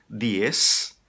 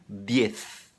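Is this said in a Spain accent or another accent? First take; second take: other; Spain. First: It is said in a non-Spain accent. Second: It is said in a Spain Spanish accent.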